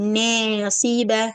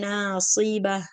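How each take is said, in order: First: The first vowel is tilted toward an e sound. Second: The vowels keep their plain heavy quality. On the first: The speaker calls it wrong. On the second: The speaker calls it right.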